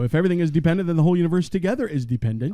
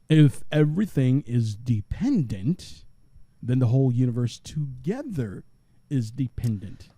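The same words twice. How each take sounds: First: It is read at a normal pace. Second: It is read more slowly.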